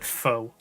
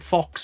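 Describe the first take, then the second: First: The word ends on a vowel, no x sound. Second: The word ends with a clear x sound. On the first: The speaker is upper class. "If you're in the upper class part of the country, you call it foe" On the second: The speaker is lower class. "If you're in the lower class part of the country, like the slums"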